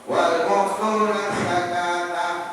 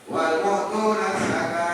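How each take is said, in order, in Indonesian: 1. Frasa itu terus, suku kata terakhir dipertahankan. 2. Frasa itu berhenti, suku kata terakhir dihilangkan. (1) "kalau di wasol" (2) "di wakaf"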